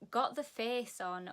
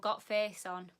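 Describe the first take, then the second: First: The word 'the' is said in full. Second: The word 'the' is cut to a 't' sound.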